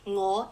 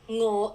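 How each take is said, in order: First: Its tone gives the meaning 'I'. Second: Its tone gives the meaning 'hungry'. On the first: It refers to oneself. "is I" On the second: It refers to wanting food. "is hungry"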